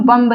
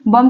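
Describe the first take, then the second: First: बम्ब with a sounded final b; wrong pronunciation. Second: बम with silent b, ending on m; correct pronunciation. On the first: Teacher showing the wrong बम्ब to students. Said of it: "बम्ब नहीं कहते हैं". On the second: Teacher telling class it is बम, not बम्ब. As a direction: say बम, no b at the end. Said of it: "बम कहते हैं". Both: Shown as a demonstration.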